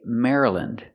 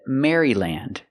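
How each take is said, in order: First: The word is said with short vowels, like Mara-lind. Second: The word is said with full vowels, like Mary-land. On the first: The speaker calls it right. "We say Maryland" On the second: The speaker calls it wrong. "They said Maryland, but we don't pronounce it like that"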